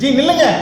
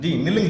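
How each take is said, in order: First: It is said heavily and forcefully. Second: It is said lightly and casually. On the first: The listener stops at once without a word. "கனத்த வார்த்தையை சொல்றோம்" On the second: The listener may ignore it and keep walking. "நம்மளே தான் சொல்றாரா இல்ல யாரையும் சொல்றாரா"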